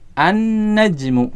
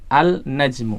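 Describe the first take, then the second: First: The L merges into a doubled N sound. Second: The L sound is clearly pronounced before N. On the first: The speaker calls it right. "huruf lamnya melebur ke huruf setelahnya" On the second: The speaker calls it wrong. "salah kalau kita membacanya dengan al-najmu"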